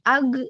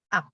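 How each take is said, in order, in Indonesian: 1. Suku kata ini berakhir dengan bunyi g bersuara. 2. Suku kata ini berakhir dengan bunyi k biasa. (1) "Bukan ag, pakai G" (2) "tapi K langsung"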